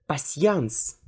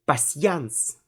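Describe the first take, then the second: Both takes have the same delivery.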